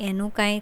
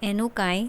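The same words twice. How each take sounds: Both takes have the same delivery.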